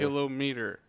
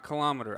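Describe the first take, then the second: First: The stress falls on the first syllable. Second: The stress falls on a later syllable. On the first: The speaker calls it right. "millimeter, centimeter, kilometer" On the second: The speaker calls it wrong. "not kilometer. I hate that word"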